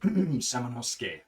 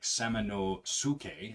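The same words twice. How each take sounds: First: The u after the s is nearly silent. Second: The u after the s is fully voiced. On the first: The speaker calls it right. "but it's pronounced Samanosuke" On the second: The speaker calls it wrong. "is how we would pronounce it"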